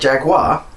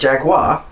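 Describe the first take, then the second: First: It is said with an American pronunciation. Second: The same.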